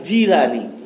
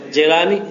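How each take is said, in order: First: The first syllable sounds like 'jee'. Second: The first syllable sounds like 'jai'. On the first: The speaker calls it right. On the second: The speaker calls it wrong.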